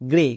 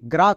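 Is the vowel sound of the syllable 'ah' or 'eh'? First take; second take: eh; ah. First: The vowel sounds like 'eh'. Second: The vowel sounds like 'ah'. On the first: The speaker calls it right. "কিন্তু এটা হবে গ্রে" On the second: The speaker calls it wrong. "এখানে অনেকে ভুল করে জি আর এ গ্রা করে দেই"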